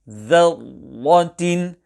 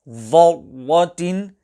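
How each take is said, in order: First: The first consonant is light, with an empty mouth. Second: The first consonant is heavy, with a full mouth. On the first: The speaker calls it right. "The correct pronunciation ... where dhal is pronounced empty mouth" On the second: The speaker calls it wrong. "pronounced full mouth and changed into dha ... will be incorrect"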